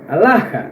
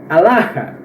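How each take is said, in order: Both takes have the same delivery.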